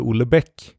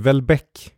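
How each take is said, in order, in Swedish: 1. Namnet uttalas på ett svenskt sätt. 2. Namnet uttalas på ett franskliknande sätt. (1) "de säger ju inte Houellebecq" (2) "det är så det låter mer på franska"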